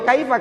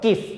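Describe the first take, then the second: First: The vowel is a full ai diphthong. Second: The vowel is a short single i sound. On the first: This is the form used when reciting the Quran. The speaker calls it right. "Yuk dibaca apa adanya ... kaifah itu adalah mat layin" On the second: This is the everyday spoken Arabic form. The speaker calls it wrong.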